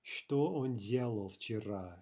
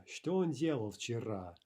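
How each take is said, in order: First: Slow, clear Что он делал вчера; slow dictation-style read of Что он делал вчера; slow model sentence. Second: Said in the usual way. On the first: Shown as a demonstration. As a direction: spell it out slowly for the class. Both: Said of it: "how would we translate".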